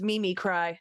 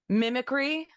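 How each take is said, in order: First: The word ends like the verb 'cry'. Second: The word ends in a short 'kree' sound. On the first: "I read it as Mimi cry" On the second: "what mine was"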